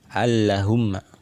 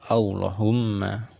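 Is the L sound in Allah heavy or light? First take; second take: light; heavy. First: The L is said light and thin. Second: The L is said heavy and thick. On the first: The speaker calls it wrong. "Ini cara membaca yang salah" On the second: The speaker calls it right. "yang benar"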